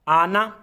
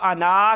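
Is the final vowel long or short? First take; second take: short; long. First: The final vowel is kept short. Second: The final vowel is drawn out long. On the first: The speaker calls it right. "सिर्फ यही लफ्ज़ है जिसको हम लंबा नहीं करेंगे" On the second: The speaker calls it wrong. "इसको आना करके नहीं पढ़ना"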